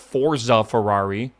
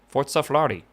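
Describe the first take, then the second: First: It is said with an English-style pronunciation. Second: It is said with an Italian-style pronunciation. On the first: The speaker calls it wrong. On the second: The speaker calls it right. "That's how you say it, right?"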